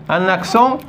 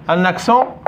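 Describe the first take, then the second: No difference in how they are said.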